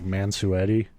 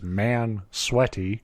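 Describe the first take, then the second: First: The name is said as man-soo-etty, Italian-style. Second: The name is said like the words man sweaty. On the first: "it's probably pronounced like Mansuetti" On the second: "which I always read as Man Sweaty"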